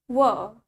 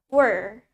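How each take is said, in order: First: It is said in British English, without R. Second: It is said in American English, with clear R.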